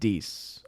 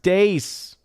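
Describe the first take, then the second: First: The vowel sounds like the 'ee' in see. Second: The vowel sounds like the 'ay' in day. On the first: "I'm still going to pronounce it Dees" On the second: "It's pronounced Dace"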